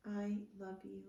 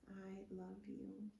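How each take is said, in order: First: Said in the usual way. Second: Much softer, slower, tender. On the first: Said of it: "repeated affirmation, plain then softer". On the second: Shown as a demonstration. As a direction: let it fall almost to a breath. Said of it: "repeated affirmation, softer repeat".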